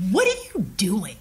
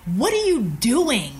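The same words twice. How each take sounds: First: Hushed, whispery scorn; a contemptuous question, half whispered; disdainful. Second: Slow, drawn-out scornful question; disdainful. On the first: Executive cuts off her eager pitch, hushed disdain. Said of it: "Like, with such disdain in his voice". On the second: Executive questions the ex-engineer, slow voiced disdain. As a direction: stretch the words out with open disdain. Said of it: "with such disdain in his voice". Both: Retold or imitated.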